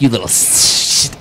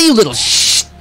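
First: It is said in a hissing, snake-like voice. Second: It is said in an ordinary voice.

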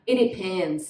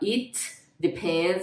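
First: The T of 'it' is nearly silent and linked. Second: The T of 'it' is clearly released. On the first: The speaker calls it right. "Então gruda" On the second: The speaker calls it wrong. "não é muito comum você ver uma pessoa mais fluente, né? Falar it depends on a few things"

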